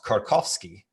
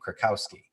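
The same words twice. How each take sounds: First: The name is said with a Polish pronunciation. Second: The name is said with an American pronunciation.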